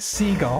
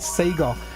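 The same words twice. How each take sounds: First: It is said with a British pronunciation. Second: It is said with an American pronunciation. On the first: "Over here, we called it Sega" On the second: "I've changed all my words to American. I end up calling it Sega"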